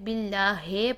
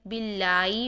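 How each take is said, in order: First: The word ends with 'heh' instead of 'hee'. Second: The h is dropped, ending in 'ee'. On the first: "ही को हे पढ़ देते हैं" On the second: "बिल्लाई नहीं करेंगे"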